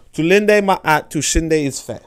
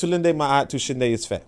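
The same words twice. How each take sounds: First: "Tulinde Ma'at Tushinde Isfe" stretched out very slowly, each word weighted; slow emphatic repeat. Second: "Tulinde Ma'at Tushinde Isfe" read out at an even, slow pace; host tries out a Swahili phrase for listeners, carefully; first try at the Swahili phrase. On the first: Host repeats the phrase so listeners remember it, slow and emphatic. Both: Shown as a demonstration. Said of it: "I don't know if I said it correctly".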